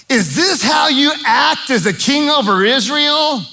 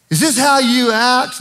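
First: High, scornful taunting wife; Jezebel mocking. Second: Jezebel taunt. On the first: Jezebel scorning her husband Ahab, high mocking taunt. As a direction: sneer it down at the sulking king. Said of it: "Did she really say it like that?". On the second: Retold or imitated. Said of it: "I've just heard it said this way".

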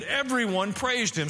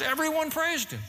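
First: Said in the usual way. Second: "Everyone praised him" pitched much higher throughout; emphatic repeat. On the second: Shown as a demonstration. Preacher has listeners circle "Everyone praised him", stressed with high pitch. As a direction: lift all of "Everyone praised him" to underline it.

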